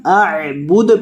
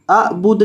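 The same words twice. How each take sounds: First: अअबुद with the final द bounced; qalqala on dal. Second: अअबुद with a dead, unbounced final द; wrong way. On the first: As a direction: let the द of अअबुद echo. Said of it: "आखिर से दाल को हिलाना है". (अअबुद के आखिरी दाल को हिलाकर) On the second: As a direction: say अअबुद ending flat, no echo on द. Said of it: "अअबुद नहीं पढ़ना". (अअबुद बिना कलकला के, गलत तरीका) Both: Shown as a demonstration.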